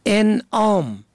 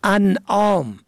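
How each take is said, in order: First: انعام said "en-am"; کسره on first letter. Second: انعام said "an-am"; فتحه on first letter. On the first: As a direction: start انعام with a short e. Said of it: "به کسر اول". (انعام با کسرهٔ الف: اِنعام) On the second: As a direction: start انعام with a short a. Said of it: "به فتح اول". (انعام با فتحهٔ الف: اَنعام) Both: Shown as a demonstration.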